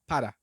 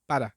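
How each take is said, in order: First: The R is a quick tap close to D. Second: The R is a quick tap close to D.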